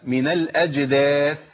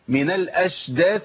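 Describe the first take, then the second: First: The jeem is said as a clear j sound. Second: The jeem is softened into an sh sound. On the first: The speaker calls it right. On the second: The speaker calls it wrong.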